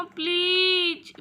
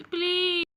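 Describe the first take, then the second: First: A long, begging please; please dragged out slowly in a begging whine; drawn-out plea. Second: A quick, clipped-off second please; a brief begging please after the long one; please said short and quick as a follow-up. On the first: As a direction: stretch the please out slowly like a whining child. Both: Acted. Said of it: "कुछ करो ना मम्मा".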